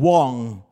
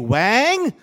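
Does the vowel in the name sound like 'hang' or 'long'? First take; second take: long; hang. First: The vowel sounds like the one in 'long'. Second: The vowel sounds like the one in 'hang'. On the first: The speaker calls it right. "pronounced as Wong" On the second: The speaker calls it wrong. "if you say Wang, that really would be Wong"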